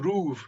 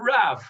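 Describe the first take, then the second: First: The vowel sounds like oo. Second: The vowel sounds like ah. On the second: This is the modern Hebrew pronunciation.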